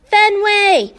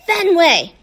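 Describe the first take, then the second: First: High, loud yell of the name; louder, higher yell. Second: Louder, pretend-mad growly call; hammed-up growly scream of the name; mock angry scream. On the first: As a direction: shout for the dog across the park. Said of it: "Hattie yells". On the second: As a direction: fake fury, playing at being mad. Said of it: "Hattie screams even louder, pretending to be mad and growly". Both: A narrator's reading.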